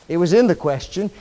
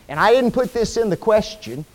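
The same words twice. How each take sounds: First: In lifted with a rise, said quickly; stress on in. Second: Didn't pushed as the key word, falling; stress on didn't. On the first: Preacher correcting himself, quick rising stress on in. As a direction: hit in to correct yourself. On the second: Preacher setting up his correction, stress on didn't. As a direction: lean on didn't, then let it fall. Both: Shown as a demonstration.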